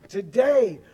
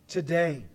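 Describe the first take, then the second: First: Today punched out louder with a falling tune; emphasis on today. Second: Today set off after a long pause, falling low; pause, then land today down low; emphasis on today. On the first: Pastor pressing the word today on the congregation, louder stress. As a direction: hit today hard and let it fall. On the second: Pastor stressing the verse's key word, pause before today. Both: Shown as a demonstration. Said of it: "I am emphasizing that word".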